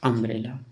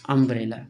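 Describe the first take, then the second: First: अम्ब्रेला with the opening u said short and quick. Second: अम्ब्रेला said a bit louder, the u short and quick; quick short u, firmer. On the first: Teacher repeating अम्ब्रेला for students, short u. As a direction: snap through the u of अम्ब्रेला. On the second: Teacher repeating अम्ब्रेला for students, louder and firm. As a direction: land अम्ब्रेला firmly with a clipped u. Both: Shown as a demonstration. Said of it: "तुरंत हो जा रहा है".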